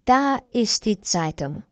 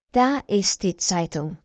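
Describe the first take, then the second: No difference in how they are said.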